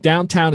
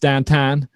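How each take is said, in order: First: It is said in a standard, non-regional accent. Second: It is said in a local Pittsburgh accent.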